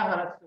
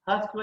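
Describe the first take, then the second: First: ह्रस्व with a sounded r, "harasva"; alternative pronunciation. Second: ह्रस्व with the r dropped, "hasva"; first pronunciation. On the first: Teacher giving the other name for short vowels, r sounded. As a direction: open ह्रस्व up into "ha-ras-va". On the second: Teacher giving two names for short vowels, r-less pronunciation. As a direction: say ह्रस्व as two syllables, "has-va". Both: Shown as a demonstration. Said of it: "दूसरे शब्द में ह्रस्व भी कहते हैं".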